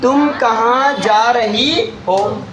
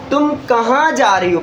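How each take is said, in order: First: तुम कहाँ जा रही हो drawn out slowly, rising at the end; slow question. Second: Said in the usual way. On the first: Shown as a demonstration. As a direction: ask it slowly, like a real question. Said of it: "पहले क्या बोला गया". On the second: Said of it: "यहाँ पर क्या बोला गया".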